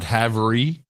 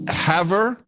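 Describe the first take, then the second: First: The name ends with an extra 'ee' syllable. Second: The name ends without an extra final syllable. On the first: The speaker calls it wrong. "not Havery" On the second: The speaker calls it right. "it's pronounced Haver"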